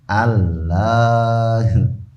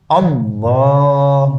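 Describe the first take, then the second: First: The L is light and thin, Sundanese-style. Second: The L is heavy and thick.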